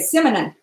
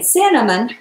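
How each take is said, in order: First: The word is pronounced in a childlike, altered way. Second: The word is pronounced in the standard way. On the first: "she would say cinnamon" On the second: "instead of saying cinnamon"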